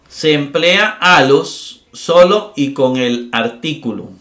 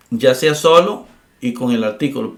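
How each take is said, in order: First: Solo stretched slowly and stressed. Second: Said in the usual way. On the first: Shown as a demonstration. Teacher to students, slowly stressing solo. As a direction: spell out solo y con el artículo slowly.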